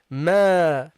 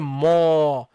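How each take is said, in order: First: The syllable is said light, with lips stretched. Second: The syllable is said heavy, with a deep vowel. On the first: The speaker calls it right. "Say ma" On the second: The speaker calls it wrong. "don't say ma"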